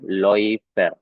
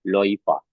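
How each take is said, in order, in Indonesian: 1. Kata itu berakhir dengan bunyi 'er'. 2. Kata itu berakhir dengan bunyi 'a'.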